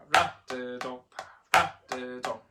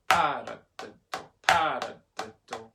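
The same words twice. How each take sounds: First: RA of paradiddle punched; light pa, strong RA in paradiddle; accent on second syllable. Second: PA of paradiddle punched; accent on first syllable. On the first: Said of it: "if I'm accenting the second tap". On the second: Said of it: "I'm gonna say it louder". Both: Shown as a demonstration.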